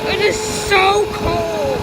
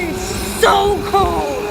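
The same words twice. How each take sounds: First: Slow, shivering, with "is" pushed hard; stress on IS. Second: Slow, stretched-out cold moan; drawn-out shivering. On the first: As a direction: lean on "is", stretch every word. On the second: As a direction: shiver through each word. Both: Real, not acted. Barefoot in the cold.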